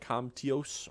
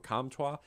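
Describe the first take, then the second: First: The name is pronounced the English way. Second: The name is pronounced the French way. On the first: The speaker calls it wrong. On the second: The speaker calls it right.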